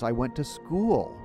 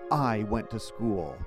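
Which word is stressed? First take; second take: school; I. First: The word school carries the stress. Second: The word I carries the stress. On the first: "the last possibility" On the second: "I could emphasize the first word"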